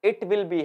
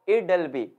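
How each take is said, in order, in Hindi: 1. Will को पूरे अलग शब्द की तरह बोला जाता है। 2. Will पर ज़ोर नहीं होता और वह सिकुड़कर it'll बन जाता है।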